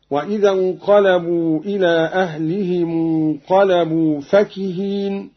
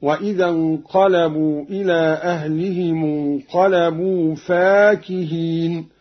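First: Measured recitation with فكهين read "fakiheen"; no alif after fa. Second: Measured recitation with فاكهين read "faakiheen"; alif after fa. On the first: Teacher quotes the verse before Qalun's variant, short fa. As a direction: keep the first vowel of فكهين short. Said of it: "بألف بعد الفاء". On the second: Teacher shows Qalun's reading, long fa. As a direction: lengthen the first vowel of فاكهين. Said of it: "بألف بعد الفاء هكذا". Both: Shown as a demonstration.

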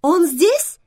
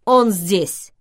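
First: High, loud, gladly hopeful question; light up on a rising question; delighted. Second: Hurried loud confirmation; loud interruption. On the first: Vivian learns the man is here, asks in delight. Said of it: "обрадовалась Вивиан". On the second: Olympus hastily cuts off the narrator to answer Vivian, loudly. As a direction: cut in loudly, as a firm statement. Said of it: "громко перебил меня Олимпус". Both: A narrator's reading.

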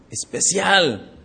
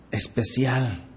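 First: "especial" drawn out slowly for weight; stretched emphasis. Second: Said in the usual way. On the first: Shown as a demonstration. Pastor stressing to the church how special it was, slowly. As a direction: lean on "especial", slow and deliberate.

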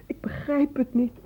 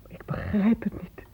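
First: Said in the usual way. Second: Breathy whisper, barely voiced. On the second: Mother whispering to the doctor in disbelief. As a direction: say it under your breath in shock.

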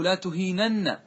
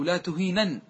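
First: تهينن said "tu-hee-NAN-na", ending in an open a; تهينن as "tuheenanna"; doubled final nun with vowel. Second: تهينن said "tu-hee-NAN", stopping on a single n; تهينن as "tuheenan"; light final nun. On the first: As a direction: say تهينن with a heavy double n plus a. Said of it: "أصله". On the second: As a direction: end تهينن on a light n, no vowel after. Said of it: "حذفت من التوكيد الخفيفة". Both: Shown as a demonstration.

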